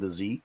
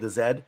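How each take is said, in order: First: The letter is said the American way, zee. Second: The letter is said the Canadian way, zed.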